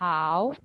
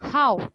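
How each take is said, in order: First: The pitch stays high and level. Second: The pitch falls sharply downward. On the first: "अगर हाउ पे first tone होती" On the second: "fourth tone है"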